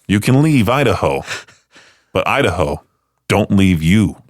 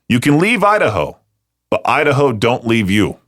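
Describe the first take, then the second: First: It is said in an eerie, creepy tone. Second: It is said in a warm, loving tone. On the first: "you can say this in a very creepy way" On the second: "you can say this in a loving way"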